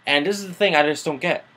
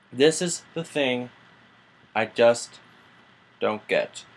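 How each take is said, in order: First: Said in the usual way. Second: This is the thing I just don't get slowed and spaced with pauses; slow emphatic repeat. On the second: Real, not acted. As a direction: drag out this is the thing, then drop on don't get.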